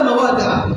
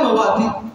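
First: The word ends without a final 'n' sound. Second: The word ends with a final 'n' sound. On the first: The noun is treated as not taking nunation. The speaker calls it right. "لماذا مواضع؟" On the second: The noun is treated as taking nunation. The speaker calls it wrong. "لا مواضع"

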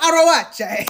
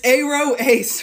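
First: It is said as one blended word, arawache. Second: It is said as two parts, aro and ace. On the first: The speaker calls it wrong. "I knew it wasn't pronounced like that" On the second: The speaker calls it right. "It's Aro Ace"

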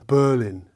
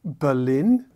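First: The stress is on the first syllable. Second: The stress is on the last syllable.

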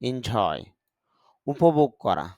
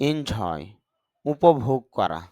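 Both takes have the same delivery.

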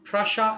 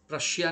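First: The word ends in a short 'sha' sound. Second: The word ends in a longer 'shiya' sound. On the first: The speaker calls it right. "ऐसे प्रशा ऐसे pronounce करते हैं उसको" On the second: The speaker calls it wrong. "प्रशिया नहीं बोलते हम लोग"

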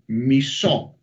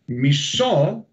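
First: The stress is on the last syllable. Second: The same.

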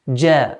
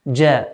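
First: The first consonant sounds like English j. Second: The same.

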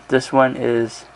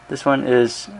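The two takes are said the same way.

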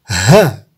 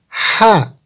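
First: The h sound comes from deep in the chest. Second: The h sound is light, not from the chest. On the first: The speaker calls it right. "ini kita baca agak ke dalam dada" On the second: The speaker calls it wrong. "Tidak boleh dibaca ha, karena nanti akan sama dengan ini"

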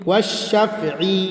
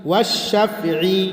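Both takes have the same delivery.

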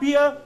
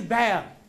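First: The vowel sounds like 'ear'. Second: The vowel sounds like 'air'. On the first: The speaker calls it wrong. "It is not beer" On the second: The speaker calls it right. "it is bear"

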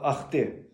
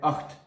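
First: A vowel sound follows the final t. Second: The word ends sharply on t. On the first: The speaker calls it wrong. "Якби ми казали ахти комусь" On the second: The speaker calls it right. "то маємо без е"

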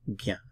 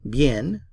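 First: The final n is not pronounced. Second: The final n is fully pronounced. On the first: The speaker calls it right. "we don't pronounce the N at the end of bien" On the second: The speaker calls it wrong. "If you speak Spanish, you say bien"

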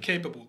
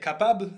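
First: The word is pronounced the English way. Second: The word is pronounced the French way. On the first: "I'm just going to change the pronunciation" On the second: "In French, I say capable"

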